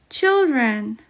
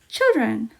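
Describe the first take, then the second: First: It is said at normal speed. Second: It is said faster.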